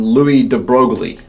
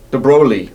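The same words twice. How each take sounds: First: Broglie said "broag-lee" with a hard G sounded; anglicized Louis de Broglie, hard G in Broglie; Anglo pronunciation. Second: De Broglie said "broh-lee", the G in Broglie left silent; a French-leaning De Broglie with no G sound. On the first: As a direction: say Louis de Broglie the English way, G fully voiced. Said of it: "Us Anglos call him". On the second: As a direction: drop the G in Broglie, French style. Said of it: "I guess the G is probably silent". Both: Shown as a demonstration.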